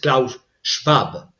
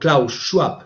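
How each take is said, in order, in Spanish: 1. El nombre se pronuncia con sonidos alemanes. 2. El nombre se pronuncia con sonidos ingleses. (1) "aunque su nombre es Klaus Schwab" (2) "si lo pronuncio a la inglesa"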